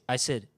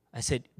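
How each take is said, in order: Both takes have the same delivery.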